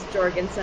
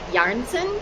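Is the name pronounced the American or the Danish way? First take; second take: American; Danish. First: The name is said with American English sounds. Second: The name is said with its original Danish sounds. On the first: "the Americanized version" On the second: "the original pronunciation is like"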